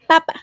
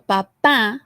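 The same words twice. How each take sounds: First: The stress is on the first syllable. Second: The stress is on the last syllable. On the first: It means potato. "the stress syllable will be in here in the first one" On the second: It means father. "the stress syllable is this"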